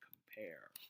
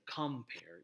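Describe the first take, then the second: First: The stress is on the second syllable. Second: The stress is on the first syllable. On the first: The speaker calls it right. "the pair in compare is the is the stressed syllable" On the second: The speaker calls it wrong. "You would not say compare"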